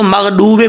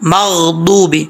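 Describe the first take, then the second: First: The middle consonant is a plain d sound. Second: The middle consonant is the emphatic dad sound. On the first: The speaker calls it wrong. "इसको मगडूबे पढ़ेंगे तो गलती है" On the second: The speaker calls it right. "बौद मगदूबी पढ़ेंगे"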